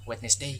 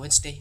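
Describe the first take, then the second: First: It is pronounced following its spelling. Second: It is not pronounced following its spelling. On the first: The speaker calls it wrong. "membacanya Wednesday ... karena tulisannya seperti itu, otomatis mereka e, mengikut membaca sesuai yang ada seperti tulisan tersebut" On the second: The speaker calls it right. "padahal aslinya adalah Wednesday"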